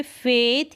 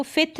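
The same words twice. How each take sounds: First: "फेथ" with a long, held A. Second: "फिथ" with a short vowel; short wrong vowel. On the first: Teacher modelling the AI sound, long A. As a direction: stretch the vowel in "फेथ". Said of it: "एआई का उच्चारण long". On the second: Teacher showing how not to read it, short vowel. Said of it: "इसको फिथ नहीं पढ़ेंगे". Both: Shown as a demonstration.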